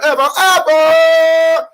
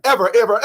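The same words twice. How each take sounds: First: Stretched shout. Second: Said in the usual way. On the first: Acted. Comic insisting nobody ever says it, stretched high shout. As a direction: drag the word out, high and loud.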